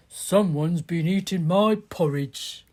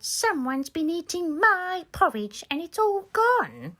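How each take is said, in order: First: A lightly voiced, lower bear dad; Daddy Bear. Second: Put-on higher, small baby bear voice. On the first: Daddy Bear complains about his eaten porridge, lightly lowered voice. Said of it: "Daddy Bear picked up his bowl and said". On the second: Baby Bear finds his porridge bowl empty, high little voice. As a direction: squeak it out like a little cub upset at losing his breakfast. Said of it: "Baby Bear picked up his bowl and said".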